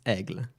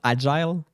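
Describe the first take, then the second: First: The name sounds like French aigle, one syllable. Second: The name sounds like the English word agile. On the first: The speaker calls it right. "It's Aigle" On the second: The speaker calls it wrong. "It's not agile"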